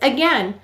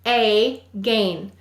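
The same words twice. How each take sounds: First: The word is said naturally with a weak first vowel. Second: The syllables are split with a full 'ay' vowel.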